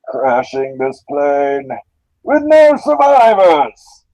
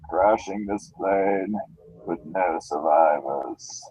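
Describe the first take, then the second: First: The voice is lively with a joking tone. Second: The voice is slow, calm, cold and drowsy. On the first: "he's much more comedic almost. He's got an almost joking tone" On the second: "he sounds like he's drugged"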